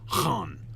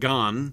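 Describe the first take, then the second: First: It begins with a throaty, rasping h sound. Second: It begins with a hard g sound. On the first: The speaker calls it right. "It's Han" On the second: The speaker calls it wrong. "It's not Gan"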